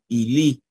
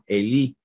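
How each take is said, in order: First: It uses the historical Greek pronunciation. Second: It uses the Erasmian Greek pronunciation. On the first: "¿Cómo sonaría en la histórica o reucliniana?" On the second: "¿Cómo suena en la erásmica, en la pronunciación erasmiana?"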